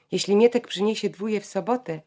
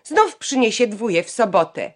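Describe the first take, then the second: First: Said in the usual way. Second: Louder, higher jab, stressing "Znów"; spiteful jab. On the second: A narrator's reading. Janka sniping at her brother in front of the family, louder and higher. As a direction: needle him with "Znów". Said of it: "Janka rzekła".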